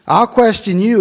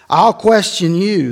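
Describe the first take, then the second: First: "question" lifted high with a rising tune; questioning God. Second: Said in the usual way. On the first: Shown as a demonstration. God challenging Job, "question" rising high. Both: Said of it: "This is God talking to Job".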